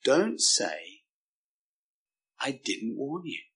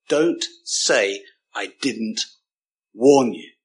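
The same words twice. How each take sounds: First: Hushed, spaced-out warning, voicing God; grave, quiet warning without anger; compassionate warning. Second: Imitating a stern teacher's catchphrase; stern deputy head. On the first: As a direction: drop right down on "I didn't warn you". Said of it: "not because he's mean or nasty". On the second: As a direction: hold back, then hit "warn you" hard. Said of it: "those days where teachers did shout".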